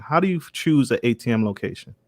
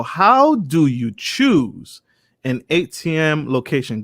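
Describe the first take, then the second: First: Said in the usual way. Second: Reading the viewer's question aloud, drawn out and higher; slow read-out question. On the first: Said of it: "So how do you choose". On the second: Shown as a demonstration. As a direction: slowly read the question to the guest, each word stretched.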